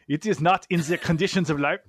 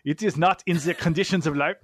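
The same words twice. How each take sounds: First: It is read in a German accent. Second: It is read in a German accent.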